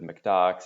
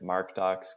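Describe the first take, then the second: First: The first part sounds like 'mac'. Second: The first part sounds like 'mark'. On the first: "common pronunciations include McDocs" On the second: "My personal favorite"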